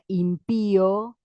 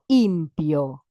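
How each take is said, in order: First: The stress is on the second syllable. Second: The stress is on the first syllable. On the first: "en lugar de la palabra impío" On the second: "porque necesito acentuar antes"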